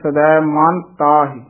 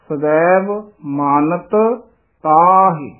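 First: One of the two t sounds is dropped. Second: Both t sounds are pronounced separately. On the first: The speaker calls it wrong. "ਕਈ ਪੜ੍ਹ ਜਾਂਦੇ ਨੇ ਸਦੈਵ ਮਾਨ ਤਾਹਿ, ਫਿਰ ਇੱਕ ਤੱਤਾ ਰਹਿ ਜਾਂਦਾ ਹੈ" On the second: The speaker calls it right. "ਇਸ ਤਰ੍ਹਾਂ ਸ਼ੁੱਧ ਬੋਲਣਾ ਹੈ"

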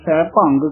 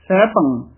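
First: Bhang ends with an added g sound. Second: Bhang ends without an added g sound. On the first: The speaker calls it wrong. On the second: The speaker calls it right.

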